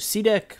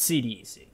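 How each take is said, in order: First: The name is said as one word. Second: The name is said as separate letters. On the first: The speaker calls it wrong. "also C DEC" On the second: The speaker calls it right. "but it's C D C. ... that is the proper pronunciation"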